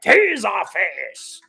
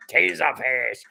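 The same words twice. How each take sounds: First: Relishing the name. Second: Said in the usual way. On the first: Shown as a demonstration. Streamer relishing a silly villain name, drawn out with gusto. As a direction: savour Taserface! like a wrestling intro. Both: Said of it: "I love saying that".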